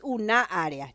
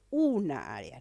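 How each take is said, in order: First: Wrong-stress demo, "una área" as u-NÁ área. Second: "una área" with a long, leaning U; stress on U. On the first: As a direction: push the second syllable of "una" before "área". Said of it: "no es una área". ("una área" acentuando la sílaba NA de "una") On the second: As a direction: stress the first syllable of "una", then ease into "área". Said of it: "yo digo una área". ("una área" alargando y acentuando la U de "una") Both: Shown as a demonstration.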